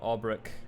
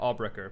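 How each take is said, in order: First: The name ends in a 'brecht' sound. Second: The name ends in a 'brecher' sound. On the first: The speaker calls it wrong. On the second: The speaker calls it right.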